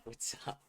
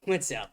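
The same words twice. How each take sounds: First: Breathy whispered repeat. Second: Said in the usual way. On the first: Real, not acted. Streamer whispering a greeting to the dog. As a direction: drop the voice to a hush and whisper it.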